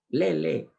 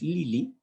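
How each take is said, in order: First: Both vowels are pronounced as e. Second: Both vowels are pronounced as i. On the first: "te dicen" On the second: "tu nombre es Lili"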